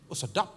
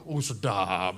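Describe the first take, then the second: First: Said in the usual way. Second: Much lower, savoring sarcasm; sarcastic relish. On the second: Shown as a demonstration. Preacher mocking the pastor's ultimatum, low and sarcastic. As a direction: drop low and savor it ironically.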